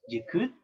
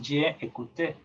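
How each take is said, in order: First: The vowel of je is dropped and joined. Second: The vowel of je is fully sounded. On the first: The speaker calls it right. "Tú dices j'écoute" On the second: The speaker calls it wrong. "ya no dices je écouté"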